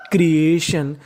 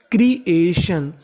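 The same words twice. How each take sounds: First: Said in the usual way. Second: creation slowly, split as क्री - ए - शन; syllable by syllable. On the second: Shown as a demonstration. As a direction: sound out each part of creation. (Creation को हिस्सों में धीरे-धीरे) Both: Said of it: "तो meaning बनी".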